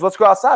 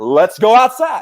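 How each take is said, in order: First: Quick, raised challenge from the guy; guy's challenge. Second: Slow, raised, mocking echo; incredulous echo. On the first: Retold or imitated. Bar guy daring the teller to go outside, quick challenge. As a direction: toss out the dare. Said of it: "he goes". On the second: Teller echoing the bar guy's dare, slow disbelief. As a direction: repeat it back slowly in disbelief. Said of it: "I'm like".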